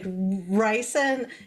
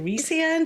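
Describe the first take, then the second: First: The first syllable sounds like 'rye'. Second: The first syllable sounds like 'ree'. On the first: This is how the reader says it in her head. The speaker calls it wrong. "I know I'm not saying the names right" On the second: This is the official pronunciation. The speaker calls it right. "is actually"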